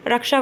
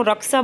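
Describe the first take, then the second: First: Said in the usual way. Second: "रक्षा" with s in place of sh, "raksa"; incorrect regional pronunciation. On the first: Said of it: "रक्षा को रक्षा बोल देंगे". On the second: Shown as a demonstration. Teacher showing an incorrect local form, "रक्षा" as raksa. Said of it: "अशुद्ध उच्चारण हो गया ये".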